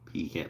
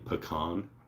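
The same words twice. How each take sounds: First: It is said as 'pee-can' with a full first syllable. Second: It is said as 'p'con' with a shortened first syllable. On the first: "like if it peed in a can" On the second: "sometimes they shorten the p, so it's like"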